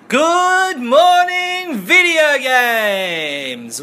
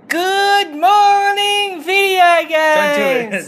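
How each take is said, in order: First: The greeting is said in a normal-pitched voice. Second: The greeting is said in a high-pitched voice. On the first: "Let's just do a normal one" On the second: "Do it in a high-pitched voice"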